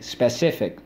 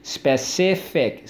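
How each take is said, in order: First: Said in the usual way. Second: "Specific" slowly as spe, ci, fic; slow classroom breakdown of "Specific"; syllable by syllable. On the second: Shown as a demonstration. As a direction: sound out "Specific" in three beats. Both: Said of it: "So let's go".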